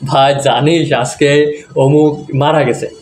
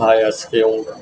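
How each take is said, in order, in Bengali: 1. এটা হালকা, স্বাভাবিক সুরে বলা। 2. এটা বিষণ্ণ, শোকের সুরে বলা। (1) "যদি এভাবে বলে, ... সো মানুষজন ভাববে গাধা" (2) "তারা মারা যাওয়ার কথাগুলো এভাবে বলে ... ফিলটা নিয়ে আসা"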